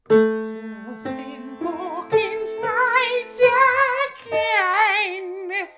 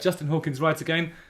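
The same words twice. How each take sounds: First: It is said in a put-on voice. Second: It is said in his normal voice.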